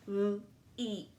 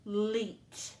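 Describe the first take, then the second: First: L-eat pulled apart into l and a long ee; segmenting sounds. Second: Said in the usual way. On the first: Shown as a demonstration. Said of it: "Three sounds". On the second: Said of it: "our second syllable".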